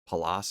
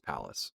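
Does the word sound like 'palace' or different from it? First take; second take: different; like palace. First: It is said differently from the word 'palace'. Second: It is said like the word 'palace'. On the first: The speaker calls it wrong. "I think I was saying like Pallas or something last time" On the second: The speaker calls it right. "It's it's it's Pallas, like the like the Palace cat"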